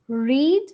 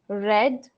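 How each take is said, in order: First: It has the present-tense pronunciation of read. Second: It has the past-tense pronunciation of read. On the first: It is the base form of the verb. "read in base" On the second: It is the past form of the verb. "read in past and past participle is pronounced as read"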